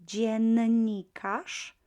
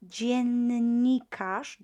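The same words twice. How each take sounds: First: Dziennikarz slow and louder, nn lengthened; slow model word. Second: Dziennikarz drawn out slowly, double N held; slow model word. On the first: Teacher repeating dziennikarz with long N. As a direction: dziennikarz again, stretching the N. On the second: Teacher showing the double N in dziennikarz. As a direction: dziennikarz spelled out in sound. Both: Shown as a demonstration. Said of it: "double N".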